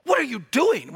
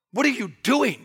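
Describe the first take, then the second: First: 'What are you doing?' said as a reproach, not a real question; demo of a rebuke. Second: A reproachful 'What are you doing?', meaning stop it; rebuking question. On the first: Shown as a demonstration. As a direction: show how 'What are you doing?' means stop. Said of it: "we see that in English, right?". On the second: Retold or imitated. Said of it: "the tense is saying, "Stop doing it".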